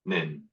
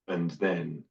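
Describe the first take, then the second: First: The words shrink to a single short syllable. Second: The words are partly reduced and run together. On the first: "and the jungle" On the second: "move to the garden"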